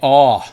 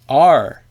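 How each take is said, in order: First: The R sound is softened into an open vowel. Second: The R sound is fully pronounced with the tongue. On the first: "I used to say aw, aw, like what they call a Maryland R" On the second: "she'd teach me how to say R"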